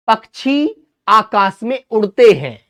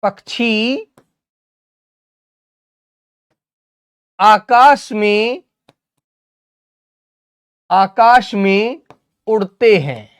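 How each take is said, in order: First: Said in the usual way. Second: Drawn-out phrases, rising before each long pause; slow dictation. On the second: Shown as a demonstration. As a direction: dictate slowly, repeating as pupils write. Dictates sentence slowly while writing.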